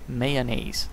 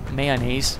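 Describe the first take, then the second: First: The word is said with an English pronunciation. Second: The word is said with a Danish pronunciation. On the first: The speaker calls it right. "There we go" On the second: The speaker calls it wrong. "I might have tried to pronounce that a bit too Danishly"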